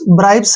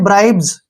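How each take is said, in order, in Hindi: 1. यह शब्द फुफकार वाली s ध्वनि से खत्म होता है। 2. यह शब्द गुंजन वाली z ध्वनि से खत्म होता है। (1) "ब्राइब्स नहीं है ये" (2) "ये है ब्राइब्स"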